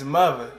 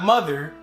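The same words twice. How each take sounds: First: The middle consonant is a v sound. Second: The middle consonant is a th sound. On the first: The speaker calls it right. "It's mother is M U V A H" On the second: The speaker calls it wrong. "It's not mother"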